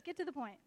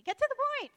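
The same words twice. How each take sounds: First: Said in the usual way. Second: High, loud exasperated demand; Pastor Scott. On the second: Retold or imitated. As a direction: blurt it out as impatient mock nagging. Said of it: "what Pastor Scott always says to me".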